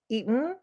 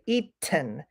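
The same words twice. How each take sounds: First: The T is a glottal stop. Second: The T is clearly released. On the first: The speaker calls it right. "glottal T" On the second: The speaker calls it wrong. "We don't say eaten"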